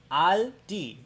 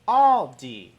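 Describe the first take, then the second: First: "Aldi" with an open German ah, AHL-dee; German pronunciation. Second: "Aldi" with a rounded aw, AWL-dee; English pronunciation. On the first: Vlogger demonstrating the store name for viewers, German pronunciation. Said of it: "So, German pronunciation". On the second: Vlogger demonstrating the store name for viewers, English pronunciation. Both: Shown as a demonstration.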